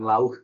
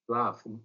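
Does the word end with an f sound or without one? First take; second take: without; f sound. First: The word ends without any f sound. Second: The word ends with a clear f sound. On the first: The speaker calls it wrong. "bukan lauh gitu ya" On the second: The speaker calls it right. "bacanya laugh ya, L A F"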